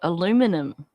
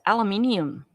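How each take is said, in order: First: It is said with four syllables, American style. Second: It is said with five syllables, Australian style. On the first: "watching American television to figure out what aluminum was" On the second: "here in Australia, there's more vowels"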